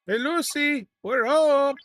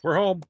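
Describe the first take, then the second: First: Hammed-up, higher, louder "Hey, Lucy, we're home"; a playful sing-song sitcom homecoming call, pitched way up; sitcom husband arriving home. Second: Said in the usual way. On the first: Gamer jokes to his crew in a mock sitcom homecoming call.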